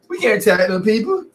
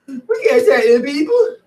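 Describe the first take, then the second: First: Said in the usual way. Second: Higher and louder whining mock coward; hammed-up whimpering weakling; whiny weakling. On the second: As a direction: whine it like a scared coward, higher pitched. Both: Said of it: "Listen to the rest of the weaklings".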